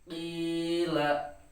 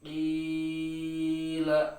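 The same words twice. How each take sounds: First: The long vowel is held for two beats. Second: The long vowel is stretched out too far. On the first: The speaker calls it right. "Dua harakat itu cukup" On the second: The speaker calls it wrong. "Ah itu jangan, itu terlalu panjang"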